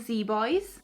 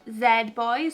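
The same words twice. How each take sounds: First: The letter Z is said the American way. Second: The letter Z is said the non-American way.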